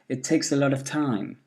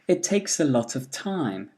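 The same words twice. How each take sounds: First: The small words are reduced to weak forms. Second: The small words are said in full form.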